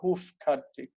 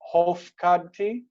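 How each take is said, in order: First: The first vowel is pronounced as u. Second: The first vowel is pronounced as o. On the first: "or they could have u" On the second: "they could have o"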